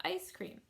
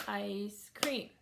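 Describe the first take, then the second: First: Said in the usual way. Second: "ice cream" as two separate beats; syllable by syllable. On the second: Shown as a demonstration. Teacher clapping for a child, "ice cream" split in two beats. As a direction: leave a gap between "ice" and "cream". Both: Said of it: "child to clap ice cream".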